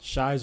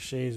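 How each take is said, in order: First: The name's vowel sounds like 'eye'. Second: The name's vowel sounds like 'ay'. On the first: The speaker calls it wrong. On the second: The speaker calls it right.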